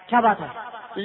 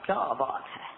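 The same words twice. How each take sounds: First: It is said as an amazed exclamation. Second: It is said as an asking question. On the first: The speaker expresses wonder or admiration. "حیرت" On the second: The speaker asks what the matter is. "سوال"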